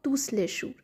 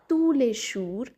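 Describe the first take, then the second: First: The final S of tous is pronounced. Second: The final S of tous is silent. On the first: The speaker calls it wrong. "and not tusleshur" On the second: The speaker calls it right. "we'll read it as tuleshur"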